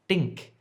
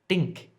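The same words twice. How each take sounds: First: The word starts with a hard d sound. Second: The word starts with a hard d sound.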